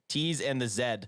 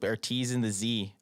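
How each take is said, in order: First: The letter Z is said as zed. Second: The letter Z is said as zee.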